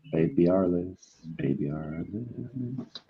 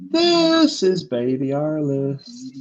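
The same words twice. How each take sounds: First: Put-on slow, much softer "Baby Alice"; hushed title read. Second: Put-on slow, higher "This is Baby Alice"; drawn-out title read. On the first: Closing the title reads, dropping to a hush. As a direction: let "Baby Alice" fade to a near hush. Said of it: "just say Baby Alice". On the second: Announcing the show title, drawn out slowly. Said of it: "a couple where you just say". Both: Shown as a demonstration.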